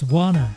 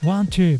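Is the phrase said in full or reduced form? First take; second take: reduced; full. First: The words blend into one shortened word. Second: Both words are said fully and separately.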